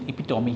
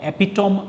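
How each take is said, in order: First: The word ends in a clear 'mee' sound. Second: The word ends in 'tome' with silent e. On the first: The speaker calls it right. "इसका pronunciation एपिटोमी है" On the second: The speaker calls it wrong. "इसको आप एपिटोम मत पढ़िएगा"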